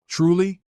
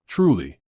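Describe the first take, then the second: First: "Truly" as a question, high and rising; incredulous echo. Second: "Truly" as a statement, falling at the end; sincere statement. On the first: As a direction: throw "Truly" back, pitched up in doubt. Echoes the apology back in disbelief. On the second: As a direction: let "Truly" fall, closing an apology. Apology, then echoed as doubting question. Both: Acted.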